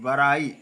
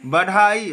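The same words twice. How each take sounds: First: बड़ाई with a flapped r, lower; correct pronunciation. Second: बढ़ाई with a hard aspirated dh, louder; wrong pronunciation. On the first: Teacher correcting the slip, correct pronunciation. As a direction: tap a light r in बड़ाई. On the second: Teacher showing the slip, wrong pronunciation. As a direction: hit the dh in बढ़ाई. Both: Shown as a demonstration. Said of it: "बढ़ाई नहीं".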